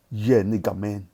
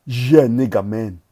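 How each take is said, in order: First: Said in the usual way. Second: Loud, hyped cheer; loud hyped shout. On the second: Real, not acted. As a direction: shout it in triumph. Hyped exclamation.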